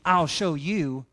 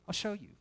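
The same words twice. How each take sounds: First: It sounds threatening and vengeful. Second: It sounds warm and gracious. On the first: The speaker intends revenge. The speaker calls it wrong. "Instead of it being" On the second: The speaker intends to show who God is. The speaker calls it right. "you change your inflection. Say, okay"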